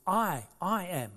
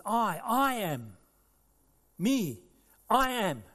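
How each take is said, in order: First: Slow, deliberate I, I am; Jesus declaring. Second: Slow, louder, higher I am; Jesus proclaiming. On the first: Preacher voicing Jesus to the congregation, deliberate. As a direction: lean on each I, measured. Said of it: "He says". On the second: Preacher voicing Jesus declaring his name, proclaiming. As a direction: ring out the divine name. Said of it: "He said". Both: Acted.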